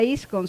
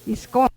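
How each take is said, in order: First: Iscon with IS stronger than con; stress on first syllable. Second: Iscon with the weight on final CON; stress on last syllable. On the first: Teacher citing the loanword's real form, first-syllable stress. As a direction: lean on the start of iscon, IS-con. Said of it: "seguro no, pues, no sería". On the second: Teacher imagining a native Pano form, end-stressed. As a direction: move the accent to the end, isCON. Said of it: "seguro sería". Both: Shown as a demonstration.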